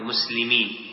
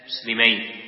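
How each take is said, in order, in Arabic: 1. تنتهي الكلمة بالحركة المميزة للجمع. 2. تنتهي الكلمة بالحركة المميزة للمثنى. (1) "ولا تقرأ هذه مسلمين" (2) "هذا بالتثنية"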